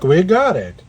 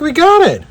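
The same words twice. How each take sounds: First: The voice sounds confident. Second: The voice sounds surprised. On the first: The success was intended. "That was a voice of confidence" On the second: The success was unexpected. "Should I sound so surprised?"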